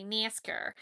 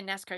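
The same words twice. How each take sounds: First: Nascar with a twanged, nasal first vowel; nasally Southern nascar. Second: Said in the usual way. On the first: Shown as a demonstration. Showing viewers how you gotta say it, nascar in nasal Southern twang. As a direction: say nascar through the nose, Southern style. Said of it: "with a nasally, like, the southern, obnoxious". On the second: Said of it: "You can't just say nascar".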